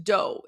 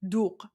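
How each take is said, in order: First: "dough" said as the English word, long o; wrong pronunciation. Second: "doogh" with a long oo vowel; correct Persian pronunciation. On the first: Streamer showing viewers the wrong reading, "dough" as in English. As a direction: say "dough" like bread dough, as spelled. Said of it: "it's not pronounced dough". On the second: Streamer teaching viewers the drink's name, "doogh" said the Persian way. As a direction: say "doogh" with oo and a throaty Persian final consonant. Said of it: "It's pronounced". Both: Shown as a demonstration.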